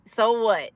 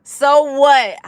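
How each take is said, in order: First: Said in the usual way. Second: Louder and higher defiant comeback; defiant louder retort. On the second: Real, not acted. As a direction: throw it back at the troll. Defiantly answering a chat troll.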